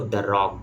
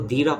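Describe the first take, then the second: First: The word 'the' has a short 'thuh' vowel. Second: The word 'the' has a long 'thee' vowel. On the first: The speaker calls it right. "उसको द rock बोलते हैं" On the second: The speaker calls it wrong. "उसको दी rock नहीं बोलते"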